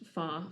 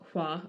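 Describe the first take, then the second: First: The name begins with an F sound. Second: The name begins with an H sound. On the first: This is the Cantonese reading of the name. "in Cantonese it's pronounced Fa" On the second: This is the Mandarin reading of the name. "so it should be pronounced Hua"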